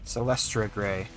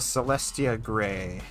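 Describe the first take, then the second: First: The name is said with an r: Celestra. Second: The name is said without an r: Celestia. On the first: The speaker calls it right. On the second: The speaker calls it wrong.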